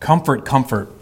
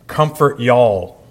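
First: Said in the usual way. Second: Slow, folksy Southern drawl on "Comfort y'all"; Southern accent. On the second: Shown as a demonstration. Pastor joking how God would say it in Southern accent. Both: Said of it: "if he were Southern".

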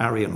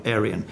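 First: "Arian" said one of two accepted ways; first pronunciation variant. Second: "Arian" with the other accepted vowel sound; alternative pronunciation. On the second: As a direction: give the alternative variant of "Arian". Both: Shown as a demonstration. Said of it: "depending how you pronounce it".

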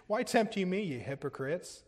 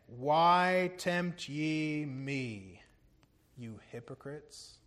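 First: Quicker retold rebuke, starting up and dropping at the end; mild retold rebuke. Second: Sobering rebuke. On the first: Preacher repeating Jesus' words to religious fakers, mildly rebuking. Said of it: "he spoke like that to religious fakers". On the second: Retold or imitated. Preacher quoting Jesus rebuking hypocrites, slow and sobering. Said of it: "Man, that's sobering".

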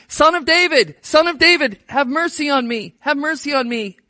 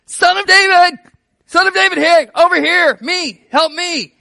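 First: A beggar crying out for mercy; calling out. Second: Much higher and louder desperate shout. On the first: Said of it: "he's yelling". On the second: Blind beggar shouting over the disciples to Jesus, desperate yell. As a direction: yell over the crowd to be heard. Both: Retold or imitated.

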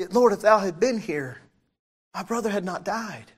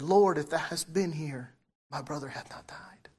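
First: Firm, raised voice, face to face; confronting. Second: A soft, broken-down plea trailing away; fallen at his feet. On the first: Martha faces Jesus over her brother's death, confronting. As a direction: say it straight at him, pointedly. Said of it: "probably looked him in the face and said". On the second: Mary falls at Jesus' feet over her dead brother, subdued. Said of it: "She fell and said". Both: Retold or imitated.

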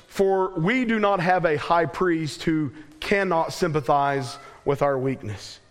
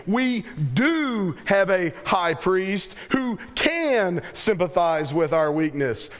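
First: Said in the usual way. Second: "do" and "can" drawn out and punched higher; emphatic reading, stretching "do" and "can"; stress on "do" and "can". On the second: Shown as a demonstration. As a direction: lean slowly and hard on "do" and "can". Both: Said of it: "the positive reading of that would be".

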